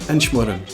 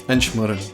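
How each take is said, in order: The two takes are said the same way.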